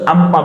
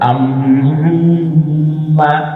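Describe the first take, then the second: First: The nasal sound is short, not held. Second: The nasal sound is held for a while. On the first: "উচ্চারণ কিন্তু আম্মা বললে হয়ে যেত" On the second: "একটু ধরে রাখলাম"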